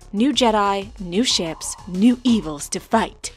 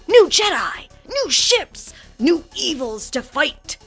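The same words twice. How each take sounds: First: It is read in a plain, flat way. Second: It is read in a dramatic, energetic way.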